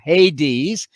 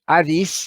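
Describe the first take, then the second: First: The word has an English pronunciation. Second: The word has a modern Greek pronunciation.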